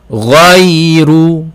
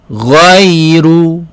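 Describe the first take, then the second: The two takes are said the same way.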